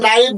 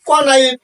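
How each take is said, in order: First: The word starts directly with the n sound. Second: A k sound is heard before the n. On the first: The speaker calls it right. "শুধু নাইফ বলছি" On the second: The speaker calls it wrong. "আমি কিন্তু কে নাইফ কিংবা ক নাইফ এ ধরনের কিন্তু ভাষা বলিনি"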